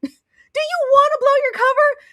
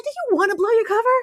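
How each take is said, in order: First: High scolding through laughter; laughing scold. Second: Exasperated scolding. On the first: Host scolding Daisy while laughing, high. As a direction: scold her while cracking up. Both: Retold or imitated. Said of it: "I said".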